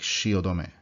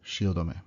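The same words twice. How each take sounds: First: It is said as four separate even syllables. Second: It is said as four separate even syllables.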